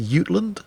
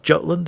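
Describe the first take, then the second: First: The name is said with a Danish pronunciation. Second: The name is said with an English pronunciation. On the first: The speaker calls it right. "it's the Jutland" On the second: The speaker calls it wrong. "It's not pronounced Jutland"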